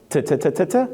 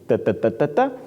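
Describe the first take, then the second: First: The T is made with the tongue on the roof. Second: The T is made with the tongue behind the teeth. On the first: "in English, you have to put the tip of your tongue on the roof of your mouth" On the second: "in Spanish, you put the tip of your tongue behind your front teeth"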